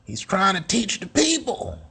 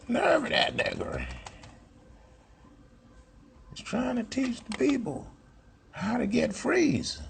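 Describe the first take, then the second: First: High, sneering mock voice of a detractor; high mock critic voice, falling at the end. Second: Much higher, softer sneering mock voice; high mock voice of a hater; mocking a critic. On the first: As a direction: sneer it like someone who resents him. Mocking a hostile critic.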